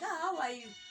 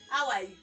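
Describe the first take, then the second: First: It sounds warm and friendly. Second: It sounds superior and condescending.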